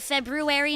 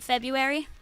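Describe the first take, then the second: First: The word is said fully and carefully. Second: The word is said in a casual, reduced way. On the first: The speaker is refined and upper class. "she would say the fancier version" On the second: The speaker talks in an everyday manner. "do like a colloquial form"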